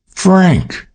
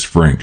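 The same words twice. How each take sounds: First: Shocked cry of his name, much higher; startled exclamation, falling off. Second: Said in the usual way. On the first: Acted. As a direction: gasp his name out in disbelief. May startled by his revelation. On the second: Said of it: "she said".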